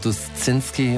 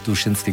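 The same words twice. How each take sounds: First: The name is pronounced with German sounds. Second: The name is pronounced with Polish sounds. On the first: "Zu mir sagen Sie also auch oft Herr Duszynski" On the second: "es wird also dann doch auch Duszynski gesprochen"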